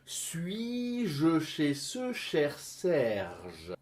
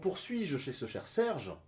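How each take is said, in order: First: The sentence is said slowly with careful articulation. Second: The sentence is said quickly and smoothly. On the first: "il faudra que tu commences par bien articuler" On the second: "que je dis avec aisance"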